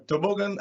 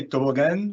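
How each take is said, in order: First: "toboggan" the English way, stressed on the middle syllable; standard English pronunciation. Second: "toboggan" the Brazilian way, with a full last syllable "gan"; Brazilian pronunciation. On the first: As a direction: say "toboggan" as tuh-BOG-un. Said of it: "I say toboggan because that". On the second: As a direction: say "toboggan" as toh-boh-GAN. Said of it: "that's how we say that in Brazil". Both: Shown as a demonstration.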